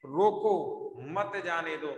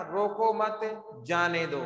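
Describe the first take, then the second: First: Emphatic "रोको", break, then "मत जाने दो"; pause after रोको. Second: "रोको मत" as one unit, break, "जाने दो"; falling "जाने दो" set apart after "रोको मत"; pause after मत. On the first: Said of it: "अभी क्या है?". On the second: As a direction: attach "मत" to "रोको", then pause. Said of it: "पहले क्या था?". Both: Shown as a demonstration.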